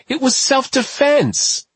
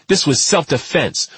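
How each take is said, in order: First: Slow, much higher pleading protest; desperate protest. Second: Said in the usual way. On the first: A narrator's reading. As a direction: beg them to see it was self-defense. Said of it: "he cried".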